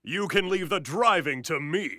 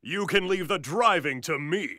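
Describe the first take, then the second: First: Booth take, second alt. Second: Booth take. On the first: Alt take with laugh after. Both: Acted.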